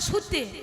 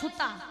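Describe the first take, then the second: First: The word ends in an e vowel. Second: The word ends in an a vowel. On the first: This is the Murshidabad regional form. "আর মুর্শিদাবাদে" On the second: This is the Nadia regional form. "নদিয়ায় বলে"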